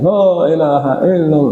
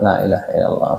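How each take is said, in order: First: The phrase is said loudly and aloud. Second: The phrase is said softly and quietly. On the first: The remembrance is recited audibly to others. The speaker calls it wrong. "bukanlah bacaan zikir itu yang dikeraskan" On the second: The remembrance is heard only by oneself. The speaker calls it right. "Tapi pelan-pelan"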